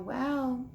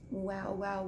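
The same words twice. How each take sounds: First: Said in the usual way. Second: Soft, lower, menacing; whispering. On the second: Acted. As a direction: hiss it softly. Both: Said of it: "he whispered".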